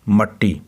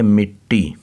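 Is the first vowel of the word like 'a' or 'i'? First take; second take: a; i. First: The first vowel sounds like 'a'. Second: The first vowel sounds like 'i'. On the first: The speaker calls it wrong. "अक्सर बच्चे से पढ़ते हैं मट्टी, तो ये मट्टी नहीं है" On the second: The speaker calls it right. "मीम के नीचे ज़ेर है"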